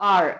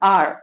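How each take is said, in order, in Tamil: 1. இந்த வார்த்தை உயிர் ஒலியுடன் தொடங்குகிறது. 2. இந்த வார்த்தை உயிர் ஒலியுடன் தொடங்குகிறது.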